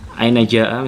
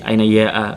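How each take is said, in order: First: The second word begins with a j sound. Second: The second word begins with a y sound.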